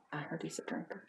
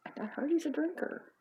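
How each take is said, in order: First: Very quiet, near-whispered rumour; soft, confidential tattle; hushed gossip. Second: High-pitched repeat of the rumour; high, insistent gossiping wife. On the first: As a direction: drop the rumour under your breath. Gossip said under the breath. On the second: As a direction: pitch it up, rising at the end. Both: Acted.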